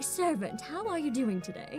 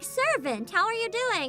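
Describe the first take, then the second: First: It is said in a deep Ludmilla voice. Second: It is said in the speaker's natural voice.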